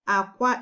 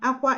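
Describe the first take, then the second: First: It has the tone pattern of the word egg. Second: It has the tone pattern of the word crying. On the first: The word means egg. "Aqua is egg" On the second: The word means crying. "Aqua is crying"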